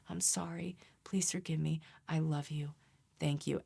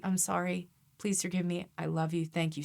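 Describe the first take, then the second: First: Hushed, partly whispered mantra; soft mantra. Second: Said in the usual way. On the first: Shown as a demonstration. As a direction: murmur it like a meditation. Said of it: "You can meditate on it". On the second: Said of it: "you could say".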